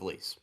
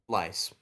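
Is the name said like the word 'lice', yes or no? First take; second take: no; yes. First: The name is not said like 'lice'. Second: The name is said like 'lice'.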